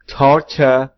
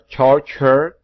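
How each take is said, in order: First: The consonant is made with a relaxed tongue. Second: The consonant is thick, tongue pressed flat upward. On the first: The speaker calls it wrong. "dengan salah" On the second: The speaker calls it right. "Yang benar"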